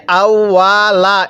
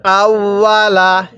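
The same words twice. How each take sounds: First: আউয়ালা with the ওয়া drawn out too long; wrong stretch. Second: আউয়ালা with the ওয়া short and clean; proper tajweed আউয়ালা; correct reading. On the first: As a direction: mistaken reading of আউয়ালা, stretching the waw. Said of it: "অনেকে আমরা এই ওয়াওয়ের মধ্যে টান দিয়ে থাকি". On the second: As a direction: recite আউয়ালা without stretching the waw. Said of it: "তাহলে কিভাবে পড়তে হবে?". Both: Shown as a demonstration.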